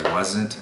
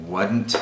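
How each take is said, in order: First: Said in the usual way. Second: "wasn't" said as "wudn't"; Southern-style "wudn't". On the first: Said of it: "instead of". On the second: Shown as a demonstration. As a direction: say "wasn't" with a D in place of the Z. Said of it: "I also have a tendency to say".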